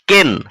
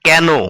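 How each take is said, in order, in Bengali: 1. এই স্বরধ্বনিটি 'bed'-এর 'e'-র মতো শোনায়। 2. এই স্বরধ্বনিটি 'cat'-এর 'a'-র মতো শোনায়। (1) "এটাও আমি ভুল উচ্চারণ করলাম" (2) "বলতে হবে কেন"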